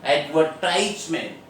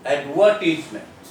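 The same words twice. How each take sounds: First: Advertisement stressed on TIE, ad-ver-TISE-ment; American Advertisement, punch the third syllable ad-ver-TISE-ment; Advertisement in American English, ad-ver-TISE-ment. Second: Advertisement stressed on VER, ad-VER-tis-ment; British Advertisement, punch the second syllable ad-VER-tis-ment; Advertisement in British English, ad-VER-tis-ment. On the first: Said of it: "The stress is there on the word tie". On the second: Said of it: "there is a stress on the word wa". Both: Shown as a demonstration.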